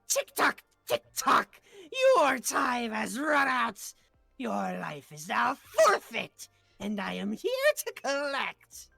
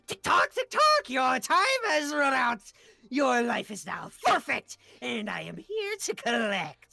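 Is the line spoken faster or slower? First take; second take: slower; faster. First: The line is spoken at a slower pace. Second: The line is spoken at a faster pace.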